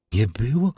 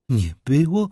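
First: Fearful question. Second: Frightened repeat. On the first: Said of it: "rozszerzone strachem". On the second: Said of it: "powtórzyła raz jeszcze". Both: A narrator's reading.

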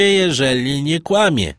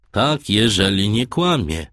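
First: Said in the usual way. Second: Skeptical, repeating the words with doubt; a captain who doesn't quite believe it; doubtful tone. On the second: A narrator's reading. Captain echoes the sailor in a doubtful tone. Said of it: "tonem powątpiewania".

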